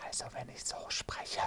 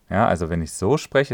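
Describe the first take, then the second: First: Toneless whisper, no voice at all. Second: Said in the usual way. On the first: Shown as a demonstration. Voice coach demonstrating a whisper to the listeners. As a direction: breathe the words out without sounding the voice. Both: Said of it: "das war ja jetzt gerade geflüstert".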